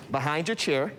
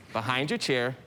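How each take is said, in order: Both takes have the same delivery.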